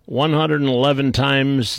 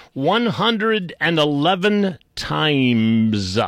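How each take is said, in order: First: Said in the usual way. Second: "one hundred and eleven times" stretched out very slowly; "times" held long for mock drama; drawn-out emphasis. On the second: Real, not acted. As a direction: draw out every word of "one hundred and eleven times" for effect. Exaggerates a count, then repeats it.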